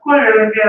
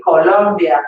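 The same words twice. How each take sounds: First: Louder mangled "Colombia" with a muddy middle vowel; botched repetition. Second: Lower, careful "Colombia" with full O's; teacher's model pronunciation. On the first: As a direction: parrot "Colombia" back wrongly, as a hopeless pupil. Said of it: "Oh, so close". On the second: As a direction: model "Colombia" as co-LOM-bia for a pupil. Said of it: "repeat after me". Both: Retold or imitated.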